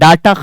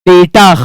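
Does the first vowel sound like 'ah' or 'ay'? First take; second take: ah; ay. First: The first vowel sounds like 'ah'. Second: The first vowel sounds like 'ay'. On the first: The speaker calls it wrong. "डाटा खत्म नहीं होता" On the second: The speaker calls it right. "डेटा खत्म होता है"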